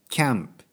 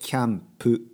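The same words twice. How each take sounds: First: It ends on p without a full vowel. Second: It ends with a full vowel after p. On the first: The speaker calls it wrong. "キャンプじゃなくて" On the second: The speaker calls it right. "プね、"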